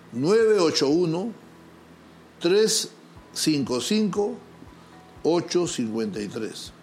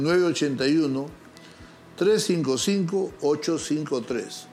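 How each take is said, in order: First: The number is said very slowly. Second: The number is said at normal speed.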